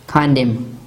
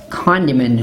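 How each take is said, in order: First: The final N is silent after the M. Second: The final N sound is pronounced after M. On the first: The speaker calls it right. "We say condom" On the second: The speaker calls it wrong. "We do not say what?"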